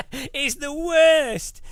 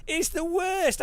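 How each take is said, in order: First: Slow, loud, drawn-out complaint; loud slow exasperation; emphatic. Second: Said in the usual way. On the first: Real, not acted. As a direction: stretch out worst with emphasis.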